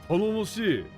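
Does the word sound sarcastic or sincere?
sincere. It is said with genuine, warm enthusiasm. The speaker truly welcomes the newcomer.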